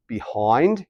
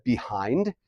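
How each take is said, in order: First: "behind" with an O-I sound in place of the long I; Australian vowel. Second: Said in the usual way. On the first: Shown as a demonstration. Teacher showing the vowel shift, "behind" said as "be-hoynd". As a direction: say "behind" as "be-hoynd", Aussie style. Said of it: "it's almost like an O I noise". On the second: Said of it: "instead of behind".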